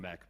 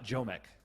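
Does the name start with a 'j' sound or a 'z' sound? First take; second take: z sound; j sound. First: The name starts with a 'z' sound. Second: The name starts with a soft 'j' sound.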